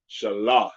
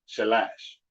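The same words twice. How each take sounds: First: Shalash with an open "ah", shuh-LAHSH; correct Shalash. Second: Shalash with a flat English "a" as in cat, shuh-LASH; wrong Shalash. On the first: Teacher showing students the right Hebrew Shalash. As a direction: give Shalash its broad ah vowel. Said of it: "The A sound is ah". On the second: Teacher showing students the wrong way to say Shalash. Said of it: "That's not properly said". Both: Shown as a demonstration.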